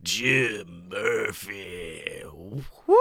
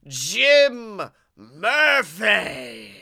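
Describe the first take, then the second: First: Low, slow, rasping sick drawl. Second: Drawn-out announcer. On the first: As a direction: stretch out the name in a sick radio voice. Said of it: "I got that good sick voice". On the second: Host introducing co-host. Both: Acted.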